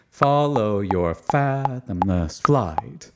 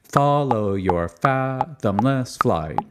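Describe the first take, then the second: First: "Follow your fathomless flight" in lilting six eight, strong first syllable of "fathomless"; slow lilting compound-meter chant with weight on "fathomless". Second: "Follow your fathomless flight" chanted in even three four beats, "fathomless" flattened; slow even triple-meter chant of "Follow your fathomless flight"; three four feel. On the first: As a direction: lilt it in two big beats, slowly. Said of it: "Or in six eight". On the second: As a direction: chant it evenly in threes, slowly. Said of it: "being in three four". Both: Shown as a demonstration.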